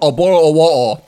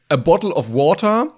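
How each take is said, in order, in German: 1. Es wird in einem breiten britischen Akzent gesprochen. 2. Es wird in einfachem Schulbuch-Englisch gesprochen. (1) "Engländer"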